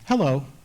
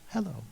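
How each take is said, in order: First: It is said at normal conversational loudness. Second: It is said at half the loudness.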